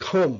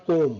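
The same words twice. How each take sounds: First: "comb" as khome, b silent; correct pronunciation. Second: "comb" said the mistaken way; wrong pronunciation. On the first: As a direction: say "comb" with a breath of air on the k. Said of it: "it's a comb". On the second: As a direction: say "comb" with an unaspirated k, as a learner would. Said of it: "not comb". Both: Shown as a demonstration.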